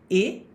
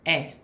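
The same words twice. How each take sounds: First: The vowel is said closed. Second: The vowel is said open. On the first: "acento E agudo" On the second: "E crase, mais aberto, o som é mais aberto"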